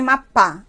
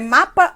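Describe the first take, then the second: First: The stress is on the last syllable. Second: The stress is on the first syllable. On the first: The speaker calls it wrong. "A palavra seria uma oxítona" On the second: The speaker calls it right. "A palavra é mapa. Ah, então a tonicidade está no mar"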